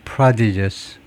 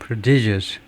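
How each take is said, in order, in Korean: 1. 강세는 첫 번째 음절에 있어요. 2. 강세는 두 번째 음절에 있어요. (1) "앞음절에 액센트가 있고 prodigious" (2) "뒤에 두 번째 음절 액센트가 있는 prodigious"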